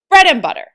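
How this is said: The word bread carries the strongest stress. The speaker calls it wrong. "If you put extra stress on the word bread and less stress on butter, it sounds weird"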